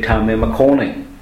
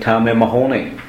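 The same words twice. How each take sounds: First: The last word starts with a hard k sound. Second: The last word starts with a throaty h sound. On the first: The speaker calls it wrong. "I can't say Tam and Mahoney" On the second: The speaker calls it right. "It has to be Tam and Mahoney"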